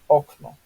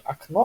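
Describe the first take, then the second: First: The stress is on the first syllable. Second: The stress is on the last syllable. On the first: The speaker calls it right. "в польском языке практически всегда у нас ударение идет на предпоследний слог" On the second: The speaker calls it wrong. "не окно"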